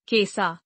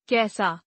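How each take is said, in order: First: कैसा with narrow e, "kesaa"; mispronounced. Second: Said in the usual way. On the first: Shown as a demonstration. Teacher showing an e error, mispronounced with narrow e. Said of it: "अशुद्ध". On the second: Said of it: "शुद्ध".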